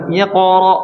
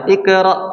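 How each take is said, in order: First: The q sound is thick and heavy. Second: The q sound is thin and light. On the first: The speaker calls it right. "ikra harusnya gimana?" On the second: The speaker calls it wrong. "Kalau seperti ini tipis salah nih"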